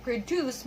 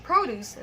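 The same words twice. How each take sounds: First: Produce as a verb, pro-DUCE; stress on second syllable. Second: Produce as a noun, PRO-duce; stress on first syllable. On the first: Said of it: "the first one is a verb". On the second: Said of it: "the second one is a noun". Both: Shown as a demonstration.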